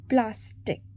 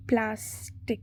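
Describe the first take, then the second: First: Said in the usual way. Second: "Plastic" softly, in two separated syllables; stressed-word demo. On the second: Shown as a demonstration. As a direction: split "Plastic" gently into its syllables. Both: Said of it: "Select the correctly spelled or stressed word".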